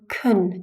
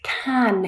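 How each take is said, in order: First: The word is said with a reduced vowel. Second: The word is said with a full vowel. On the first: "kun is the weak form in a sentence" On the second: "Can is the strong form"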